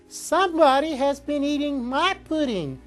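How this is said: It is said in a wee little voice.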